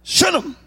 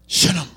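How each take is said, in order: First: "Shunem" said high and bright, a playful squeak. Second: Said in the usual way. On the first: Shown as a demonstration. Pastor toying with the word, "Shunem" pitched high. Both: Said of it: "That just sounds spiritual".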